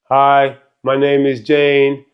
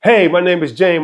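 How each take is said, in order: First: It sounds flat and robotic. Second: It sounds lively and engaged.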